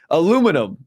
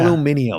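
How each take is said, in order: First: It is said with four syllables, American style. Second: It is said with five syllables, British style.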